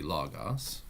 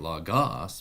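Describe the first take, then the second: First: Logos as LOG-os, second syllable light; stress on first syllable. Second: Logos as log-OS, last syllable punched; stress on second syllable. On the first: Teacher showing the accented syllable, logos stressed on LO. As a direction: put the weight on the start of logos. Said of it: "but it would be logos". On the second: Teacher showing the wrong accent placement, logos stressed on GOS. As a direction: put the weight on the end of logos. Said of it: "it would be not logos". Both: Shown as a demonstration.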